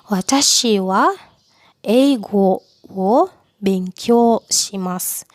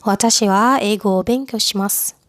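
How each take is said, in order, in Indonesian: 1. Kata-katanya dipisahkan oleh jeda. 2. Kata-katanya menyambung tanpa jeda.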